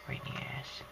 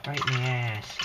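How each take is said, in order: First: Much softer repeat in a whisper. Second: Said in the usual way. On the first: Real, not acted. To viewers, shot in the ass, whispered aside. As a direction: mutter it under your breath.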